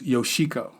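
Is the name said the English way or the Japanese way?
English. The name is said the English way. This is how someone reading the written name says it. The speaker calls it wrong. "you would say her name was Yoshiko"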